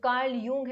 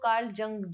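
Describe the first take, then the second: First: The name starts with a Y sound. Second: The name starts with a J sound. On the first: "जो Karl यूंग है" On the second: "maximum लोग कार्ल जंग जंग जंग बुलाते हैं"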